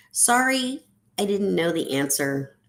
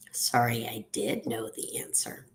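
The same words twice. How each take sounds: First: Said in the usual way. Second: Low, soft, sheepish admission; quiet confession under the breath; hushed apology. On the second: Acted. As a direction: drop to a near-whisper, leaning on "did". Opposite apology, said as an aside.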